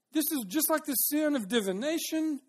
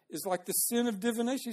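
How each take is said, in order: First: High-pitched insistence on how serious it is; urgent admonishing. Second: Said in the usual way. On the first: Acted. Samuel correcting Saul on his sin, urgent admonishing. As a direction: drive the comparison home, pitched up. Verse restated emphatically in paraphrase.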